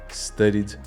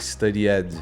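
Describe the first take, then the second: First: The -ed ending is said without a vowel. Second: The -ed ending is said with a full vowel. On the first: The speaker calls it right. "A gente não costuma pronunciar o E" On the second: The speaker calls it wrong. "muita gente vai falar ... ou studied ... Está errado"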